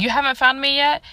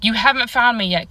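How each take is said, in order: First: Pitched higher, rising into a question; the uncle repeating it back as a surprised question; puzzled question. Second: A calm, taunting statement falling at the end, a little louder; the mystery voice's flat, knowing taunt; eerie voice. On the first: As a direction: uncle asking, a little confused. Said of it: "and he's like". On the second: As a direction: hidden voice teasing from the dark. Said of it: "and I hear". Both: Retold or imitated.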